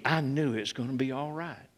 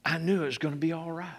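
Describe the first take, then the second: First: Quiet conviction. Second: Quiet, faster. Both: Real, not acted. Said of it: "from the depth of my being".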